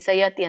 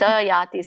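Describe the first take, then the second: First: The vowel after y is short. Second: The vowel after y is long. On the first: The speaker calls it wrong. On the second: The speaker calls it right.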